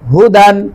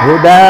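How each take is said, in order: First: The word ends with an n sound. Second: The word ends on a vowel, without n. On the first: The reader goes on without stopping. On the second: The reader stops on this word.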